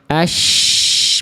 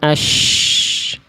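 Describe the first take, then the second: First: The sh is said with relaxed, unrounded lips. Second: The sh is said with pushed-out, rounded lips. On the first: The speaker calls it right. "Harusnya ash biasa aja" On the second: The speaker calls it wrong. "bukan ash"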